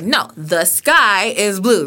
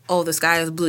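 First: It is said bigger, with projected energy. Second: It is said plainly, without extra energy.

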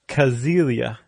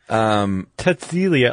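First: The name begins without a TS sound. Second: The name begins with a TS sound. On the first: The speaker calls it wrong. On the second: The speaker calls it right.

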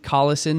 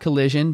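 First: The middle consonant is a plain 's' sound. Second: The middle consonant is a 'zh' sound. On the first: The speaker calls it right. "the classic one where it all began, Darren Collison" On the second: The speaker calls it wrong. "not Collision"

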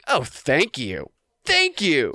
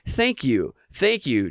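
First: It is said in a sarcastic tone. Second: It is said in a plain, polite tone.

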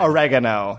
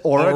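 First: It is said with an American pronunciation. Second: It is said with a British pronunciation.

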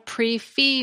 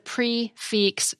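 First: The final consonant of fixe is silent. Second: The final consonant of fixe is pronounced. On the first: The speaker calls it wrong. "It's not a pre-fee meal, as I've heard some servers call it" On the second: The speaker calls it right. "you do pronounce that consonant"

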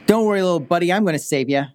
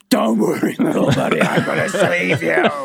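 First: It is said in a normal voice. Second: It is screamed in a large monster voice.

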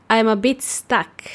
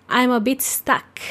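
Both takes have the same delivery.

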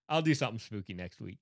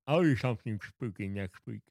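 First: It is said in a normal speaking voice. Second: It is said as if with no teeth.

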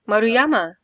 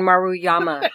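First: It is said with a Japanese-Spanish sounding accent. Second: It is said with a plain English accent.

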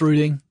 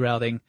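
First: It is said the British way, like rooting. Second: It is said the American way, like rowting.

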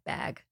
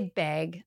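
First: The vowel has an American sound. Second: The vowel has a Canadian sound. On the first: "before I say the word, say bad. Bad bag" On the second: "I say bag. I'm Canadian"

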